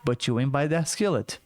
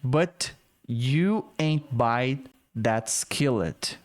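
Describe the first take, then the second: First: The words are run together into one stretch. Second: The words are spoken slowly and kept separate. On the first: "mas ela emendou tudo" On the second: "Falei pausadamente"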